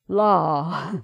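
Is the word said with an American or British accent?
American. The vowel is open and unrounded, like 'ah'. "she pronounced it la"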